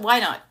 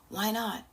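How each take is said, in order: First: It sounds harsh and judgmental. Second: It sounds gentle and kind.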